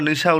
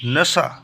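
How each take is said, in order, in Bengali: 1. স্বরটি টান ছাড়া, ছোট করে বলা হয়। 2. স্বরটি একটু লম্বা করে, টেনে বলা হয়। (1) "বাংলাতে আমরা নিশা উল্লেখ করি" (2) "আরবিতে একটু টান দিয়ে পড়তে হয়"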